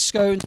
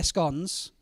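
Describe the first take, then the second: First: Scones rhyming with cones; long-O pronunciation. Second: Scones rhyming with dons; short-O pronunciation. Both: Shown as a demonstration. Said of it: "would she say scones or scones".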